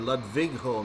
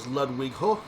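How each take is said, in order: First: The name is said with a V sound. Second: The name is said with a W sound.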